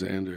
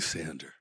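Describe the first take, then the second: First: The name begins with a Z sound. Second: The name begins with an S sound. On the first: The speaker calls it right. "he could never say Xander" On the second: The speaker calls it wrong. "all American guys just don't like the Z sound. So they always call me Sander"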